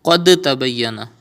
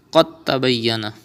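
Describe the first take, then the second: First: Qad tabayyana with the d sounded before ta; wrong reading. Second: Qad tabayyana with the d skipped, qa joined to tta; right reading. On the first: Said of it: "You will not read as". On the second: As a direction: run qa straight into the doubled ta. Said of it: "You have to skip dal". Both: Shown as a demonstration.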